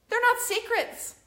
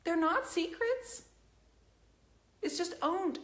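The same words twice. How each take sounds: First: They're NOT secrets, with not punched much higher and louder; stress on not. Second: They're not secrets, said slowly with not rising; slow and deliberate. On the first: Defending her painters, she hits not high and loud. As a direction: slam the word not down hard. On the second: Repeating it slowly to the whole chat. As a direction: spell it out slowly, word by word. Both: Real, not acted.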